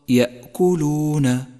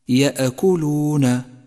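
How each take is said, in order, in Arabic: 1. تُمسك الهمزة بسلاسة من دون ارتداد. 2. تُنطق الهمزة بارتداد، كوقفة لها صدى. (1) "والصواب يأكلون" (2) "أي هكذا يأكلون يأكلون، فهذا خطأ شائع"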